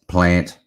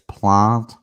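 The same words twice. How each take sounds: First: Plant is said with a non-South Australian vowel. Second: Plant is said with the South Australian vowel. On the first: The speaker is not from South Australia. The speaker calls it wrong. "you're actually not from South Australia" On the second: The speaker is from South Australia. The speaker calls it right. "That's correct. A very South Australian way of speaking"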